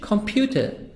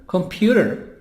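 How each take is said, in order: First: It is said with a British accent. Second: It is said with an American accent.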